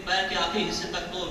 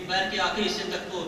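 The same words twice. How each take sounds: The two takes are said the same way.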